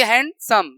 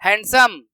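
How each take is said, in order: First: हैंडसम in two beats, हैंड, then सम; broken into syllables. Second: Said in the usual way. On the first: Shown as a demonstration. Teacher showing pupils it has two syllables, split in two. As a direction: split हैंडसम with a tiny gap before सम. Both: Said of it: "दो बार में बोल रहे हैं".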